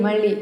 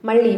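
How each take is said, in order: The two takes are said the same way.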